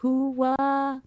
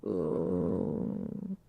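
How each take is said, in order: First: Timid, weak hooah; a limp try at the Pacino shout; half-hearted Pacino hooah. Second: Low, droopy, deflated ooh; depressed-sounding. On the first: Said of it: "Can you do that?". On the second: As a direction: sound like you've lost all hope. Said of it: "you sound like you have depression". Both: Pretend.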